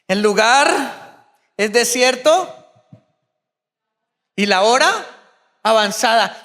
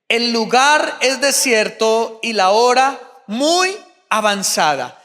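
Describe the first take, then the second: First: It is said in an annoying, whiny little voice. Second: It is read in a plain reading voice.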